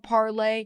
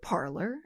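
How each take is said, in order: First: It is said like the French verb parler. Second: It is said like the English word parlor. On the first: The speaker calls it wrong. "the en français form of parler" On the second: The speaker calls it right. "as in a sitting room where you greet your visitors"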